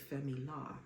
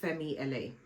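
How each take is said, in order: First: LA is spoken as a single syllable. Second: LA is spoken as two separate letters. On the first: "I've heard some people say Femi La" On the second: "the L A stands for Los Angeles"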